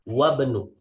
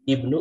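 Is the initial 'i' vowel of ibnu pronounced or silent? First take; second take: silent; pronounced. First: The initial 'i' is dropped, linking into 'wabnu'. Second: The word starts with an audible 'i' vowel. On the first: "Alifnya tidak dibaca" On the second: "Ini dibaca I-nya"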